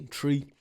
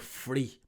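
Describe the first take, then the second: First: The word begins with a t sound. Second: The word begins with an f sound. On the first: This is how the speaker naturally says it. "I have to say three, like you know the tree" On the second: This is how people over here say it. "people say free"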